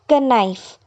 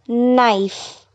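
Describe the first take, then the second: First: The k sound is pronounced at the start. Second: The k sound is silent at the start. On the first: The speaker calls it wrong. "it's not knife" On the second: The speaker calls it right. "the word is knife"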